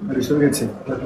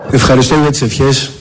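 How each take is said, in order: First: Far from the microphone, much softer; thanks spoken away from the mic, barely heard; faint, off mic. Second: Said in the usual way. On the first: Real, not acted. President thanks the room before his mic is on, faint and distant.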